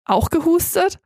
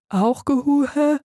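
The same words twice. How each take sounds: First: Said in the usual way. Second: Slow, slurred without a tongue; tongueless mumble. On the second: Acted. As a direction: drag it out, no tongue. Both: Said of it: "wollte ich sagen".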